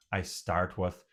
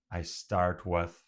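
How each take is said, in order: Both takes have the same delivery.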